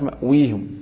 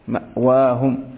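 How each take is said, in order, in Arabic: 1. الصوت بعد الواو هو 'i' طويل. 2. الصوت بعد الواو هو 'a' طويل. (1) "ما قالت مأويهم" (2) "فتأتي على القياس وهو الفتح"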